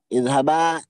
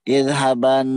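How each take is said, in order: First: The word ends with a long a vowel. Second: The word ends with an n sound. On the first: The speaker stops after the word. "ketika diwakafkan wajib menjadi alif" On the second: The word runs on into the next words. "ketika diwasol dia dilafatkan dengan nun"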